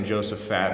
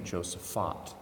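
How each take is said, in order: First: Josaphat ending in a flat "fat"; childhood pronunciation. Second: Josaphat ending in "fot", with an ah vowel; corrected pronunciation. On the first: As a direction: say the last syllable of Josaphat like "fat". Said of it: "I grew up saying Josaphat". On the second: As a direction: say the last syllable of Josaphat like "fot". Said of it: "They pronounce it Saint Josaphat". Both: Shown as a demonstration.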